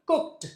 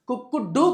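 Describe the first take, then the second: First: The ending is a short t sound. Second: The ending is a separate d sound. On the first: The speaker calls it right. "టా చెప్పాలి" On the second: The speaker calls it wrong. "కుక్ డూ కాదు"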